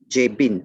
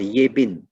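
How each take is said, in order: First: The name begins with a J sound. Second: The name begins with a Y sound.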